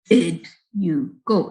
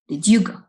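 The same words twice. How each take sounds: First: The d and y are said separately. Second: The d and y merge into a j sound. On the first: The speaker calls it wrong. "nobody says it that way. We don't say" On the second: The speaker calls it right. "It becomes"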